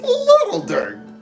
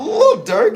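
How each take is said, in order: First: The first word is said in full, 'Little'. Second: The first word is clipped short, like 'Lil'. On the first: The speaker calls it right. "You gotta pronounce it, pronounce it the whole way" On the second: The speaker calls it wrong. "It's not Little Dirk"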